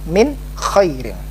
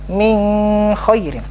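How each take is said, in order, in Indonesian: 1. Bunyi n diucapkan dengan jelas dan tegas. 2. Bunyi n kabur, tidak diucapkan dengan jelas. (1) "tetap jelas"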